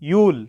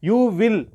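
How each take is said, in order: First: It is said as one contracted syllable. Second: It is said as two separate words.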